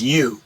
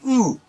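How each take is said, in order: First: It is said with a y sound before oo. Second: It is said as a plain oo sound. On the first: The speaker calls it wrong. "they pronounce it as you" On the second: The speaker calls it right. "but we say u"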